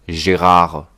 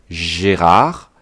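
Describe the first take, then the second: The two takes are said the same way.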